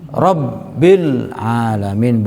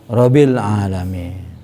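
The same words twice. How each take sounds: First: The doubled consonant is held long. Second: The doubled consonant is said short. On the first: The speaker calls it right. "Harus bertasdid" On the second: The speaker calls it wrong.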